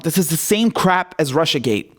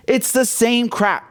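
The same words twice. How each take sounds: First: Said in the usual way. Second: "same crap" slowed right down, every word leaned on; slow emphatic repeat. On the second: Real, not acted. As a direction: drag out "It's the same crap" to hammer it home.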